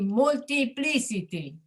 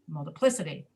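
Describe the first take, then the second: First: The vowel before the stress is said fully. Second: The vowel before the stress is reduced. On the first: The speaker calls it wrong. "It should be multiplicity, right? But we don't speak that way" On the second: The speaker calls it right. "We say"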